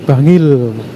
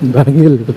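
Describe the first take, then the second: First: The name begins with a plain b sound. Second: The name begins with an m sound before b. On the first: This is how the name is written. "Kalau tulisannya Bangil" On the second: This is how local villagers say the name. "penyebutannya itu Bangil"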